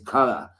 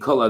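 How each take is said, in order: First: It is said imitating a Boston accent. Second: It is said in the speaker's usual accent. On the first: "they say color" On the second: "instead of saying color"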